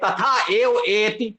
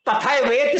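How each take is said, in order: First: The words are kept apart, giving more syllables. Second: The words are merged together into fewer syllables. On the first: The syllable count fills the meter. The speaker calls it right. "तब ग्यारह हो पाएंगे" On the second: The syllable count falls short of the meter. The speaker calls it wrong. "वेद संहिता पाठ में कर देते हैं"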